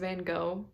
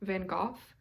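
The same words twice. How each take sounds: First: The name is said the common English way. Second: The name is said the original way.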